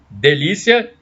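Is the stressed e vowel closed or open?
closed. The stressed e is a closed vowel. This is how people in Brasília say it. "o E tende a ser fechado. Então, eu vou falar delícia"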